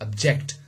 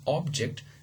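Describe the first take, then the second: First: The stress is on the second syllable. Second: The stress is on the first syllable. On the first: "the second uh, syllable is stressed" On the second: "as a noun, the the the first syllable was stressed"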